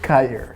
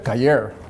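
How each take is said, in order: First: It is said with an American Arizona accent. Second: It is said with an Ecuadorian Spanish accent.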